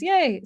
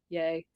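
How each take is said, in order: First: The word is said in a natural, cheerful way. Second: The word is said in a stiff, robotic way. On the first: The speech engine read the word correctly. The speaker calls it right. "and now it says yay" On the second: The speech engine misread the word. The speaker calls it wrong. "in the beginning there was it would pronounce it like yay"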